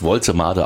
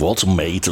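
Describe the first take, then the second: First: The name is pronounced the German way. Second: The name is pronounced the English way. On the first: The speaker calls it right. "aber er wird wirklich Woltemade ausgesprochen" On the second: The speaker calls it wrong. "will man immer das gleich Englisch aussprechen"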